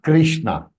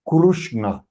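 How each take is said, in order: First: The first syllable is pronounced kri. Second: The first syllable is pronounced kru. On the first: The speaker calls it wrong. "It is not Krishna" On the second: The speaker calls it right. "It is Krushna"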